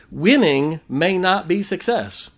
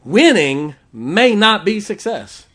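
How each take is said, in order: First: Slow, measured first statement. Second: Louder and slower, pressing each word; slow, louder restatement. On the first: Preacher stating the point plainly before repeating it. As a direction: lay it down slow and even. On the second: Preacher repeating the point to the congregation, louder. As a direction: punch it home the second time. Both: Shown as a demonstration.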